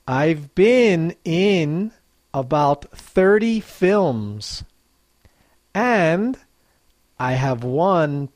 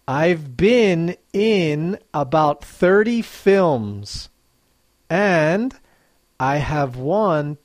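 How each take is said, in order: Both takes have the same delivery.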